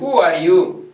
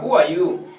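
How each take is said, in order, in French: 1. Le son R dans 'are' est clairement prononcé. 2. Le son R dans 'are' est omis. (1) "nous sommes encore au début, je peux dire" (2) "tu ne prononceras pas les R"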